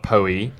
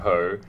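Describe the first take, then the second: First: The name is said with an extra syllable. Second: The name is said as one syllable. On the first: The speaker calls it wrong. "not Poe-y" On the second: The speaker calls it right. "an Edgar Allan Poe"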